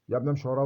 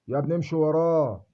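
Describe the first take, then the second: First: Said in the usual way. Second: Slower and louder, leaning on وراه with a long fall; pleading mock advice. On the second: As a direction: urge him: امشي وراه, drawn out and pressed. People urging him to obey. (رجاء ممثَّل بصوت أعلى وأبطأ مع ضغط على وراه)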